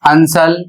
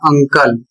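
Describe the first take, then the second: First: The middle consonant is an 's' sound. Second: The middle consonant is a 'k' sound. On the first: The speaker calls it wrong. "अंकल को अंसल" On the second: The speaker calls it right. "इसका उच्चारण होगा अंकल"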